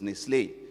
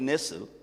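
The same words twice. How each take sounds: First: The name is said in a French-style pronunciation. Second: The name is said in an English-style pronunciation. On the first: This is how it is said where it comes from. The speaker calls it right. "they come from the French part of Switzerland, so it's Nestle" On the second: This is how people commonly say it. The speaker calls it wrong. "They call it Nestle"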